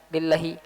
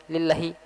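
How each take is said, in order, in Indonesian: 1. Vokal setelah 'l' diucapkan pendek. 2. Vokal setelah 'l' diucapkan pendek.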